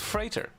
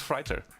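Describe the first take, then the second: First: The first vowel sounds like the one in 'freight'. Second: The first vowel sounds like the one in 'fight'. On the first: The speaker calls it right. "It's freighter" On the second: The speaker calls it wrong. "which is completely wrong"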